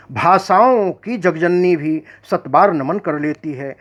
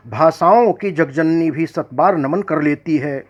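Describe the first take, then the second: No difference in how they are said.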